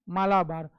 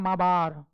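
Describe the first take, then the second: First: The L sound is pronounced in the middle. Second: The L sound is left out entirely. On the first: This is the habitual everyday pronunciation. "हम लोग क्या बोलते हैं" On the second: This is claimed to be the actual pronunciation. "मालाबार में एल silent होता है"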